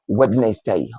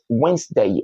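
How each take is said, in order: First: The middle d sound is pronounced. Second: The middle d sound is silent. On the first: The speaker calls it wrong. "and not Wednesday" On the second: The speaker calls it right. "So that's Wednesday"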